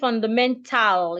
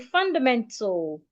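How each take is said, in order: First: The final syllable has a full, clear A vowel. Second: The final syllable's A vowel is silent or reduced. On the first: The speaker calls it wrong. "So you don't say fundamental, you don't say al, tal" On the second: The speaker calls it right. "The A becomes silent, so we say fundamental"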